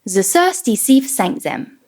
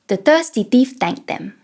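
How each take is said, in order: First: The th sounds are replaced by s and z. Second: The th sounds are replaced by t and d. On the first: The speaker calls it wrong. "Let's start with the S and Z" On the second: The speaker calls it right. "Let's try it with T and D"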